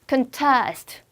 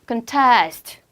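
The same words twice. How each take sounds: First: The stress is on the second syllable. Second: The stress is on the second syllable.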